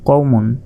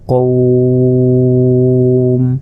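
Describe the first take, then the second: First: The word ends with a final vowel ending. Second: The word ends without the final vowel ending.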